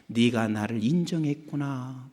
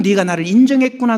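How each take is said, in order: First: Soft, low approval; tender divine voice. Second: Said in the usual way. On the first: Retold or imitated. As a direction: acknowledge them gently. God's voice quoted softly.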